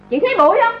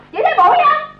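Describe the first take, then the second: First: Said in the usual way. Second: Sharper repeat. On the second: Acted.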